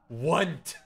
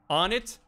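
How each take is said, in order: First: One syllable, starting with a 'w' sound. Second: Two syllables, starting with a short 'o' sound. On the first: "Want is the Omega Galaxy brain" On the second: "on it is kind of goofy"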